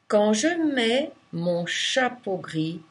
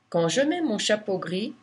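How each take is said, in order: First: It is spoken slowly. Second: It is spoken at normal speed. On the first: "Une première fois lentement" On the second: "une seconde normale"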